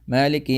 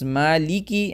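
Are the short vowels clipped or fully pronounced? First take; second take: clipped; fully pronounced. First: It is rushed, with short vowels clipped. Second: It is careful, with short vowels fully voiced. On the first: The speaker calls it wrong. "if I read it quickly" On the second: The speaker calls it right. "So it's maliki"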